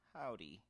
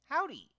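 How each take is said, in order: First: It is said in a sad, sorrowful tone. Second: It is said in a happy, cheerful tone. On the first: The character is feeling sorrow. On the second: The character is feeling happy.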